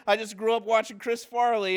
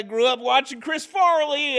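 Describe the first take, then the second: First: Said in the usual way. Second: High, loud, eager answer; excited self-quote. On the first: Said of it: "I go". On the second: Retold or imitated. Newcomer answering the worker's karate question, high, loud, eager. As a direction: blurt it out eagerly. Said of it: "And I said that, I go".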